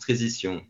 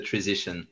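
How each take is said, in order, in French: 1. Le nom se prononce avec des sons français. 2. Le nom se prononce avec des sons anglais. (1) "en France, on le prononce Treesition" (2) "quand on parle avec les anglophones, c'est plutôt Treesition"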